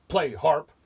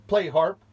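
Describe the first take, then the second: First: Loud, high giant command; roaring giant. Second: Put-on higher, louder boy's command; Jack commanding. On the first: Acted. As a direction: roar it at the harp. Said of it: "the giant roared". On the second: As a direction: call out the order as Jack. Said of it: "said Jack".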